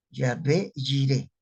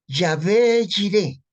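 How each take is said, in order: First: Said in the usual way. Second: "Yahvé Jireh" slow and loud, high, Y sounds stressed. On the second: Shown as a demonstration. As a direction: call out "Yahvé Jireh" slowly, both with a Y. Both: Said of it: "Aquí es con Y".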